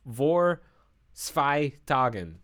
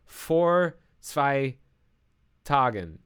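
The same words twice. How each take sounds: First: "vor" tried with an English V sound; "vor" begun on a voiced V, drawn-out German words; uncertain German pronunciation. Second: "vor" said like "for", with an F; slow, careful "vor zwei Tagen", F opening "vor"; V pronounced as F. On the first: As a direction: attempt "vor zwei Tagen" slowly, with V in "vor". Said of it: "Am I pronouncing that right?". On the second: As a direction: sound out "vor" with a clear F, word by word. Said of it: "V is pronounced like F". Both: Shown as a demonstration.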